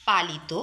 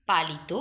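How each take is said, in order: Both takes have the same delivery.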